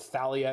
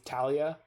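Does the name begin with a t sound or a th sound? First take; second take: th sound; t sound. First: The name begins with a th sound. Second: The name begins with a plain t sound. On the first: The speaker calls it wrong. "I can't not say Thalia because there's a freaking H in it" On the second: The speaker calls it right. "it almost definitely should be Talia"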